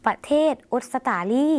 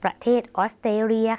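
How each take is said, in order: First: ออสตาลี said "ot-sa-ta-li"; Lao pronunciation. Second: Said in the usual way. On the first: Shown as a demonstration. Teacher repeating the Lao country name for viewers, Lao pronunciation. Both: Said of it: "หมายถึง".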